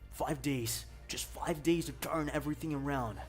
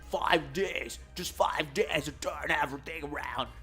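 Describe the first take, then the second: First: The voice is smoother with little growl. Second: The voice is rough with a heavy growl. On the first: The speaker calls it right. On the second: The speaker calls it wrong.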